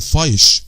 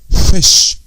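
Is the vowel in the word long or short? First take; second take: long; short. First: The vowel is a long ai sound. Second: The vowel is a short i sound. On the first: The speaker calls it wrong. "ما اقولش مثلا فايش لا لا" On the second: The speaker calls it right. "زي الكسره شويه كده"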